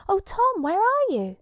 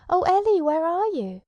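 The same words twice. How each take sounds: First: High, loud call into the distance; crying out. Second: Loud, high desperate call; crying out. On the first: Ellie calling out for Tom, high loud call. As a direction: call out for him, much higher and louder. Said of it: "and then she cried". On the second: Tom calling out for lost Ellie, loud high cry. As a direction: shout her name, much louder and higher. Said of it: "And Tom cried". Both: Acted.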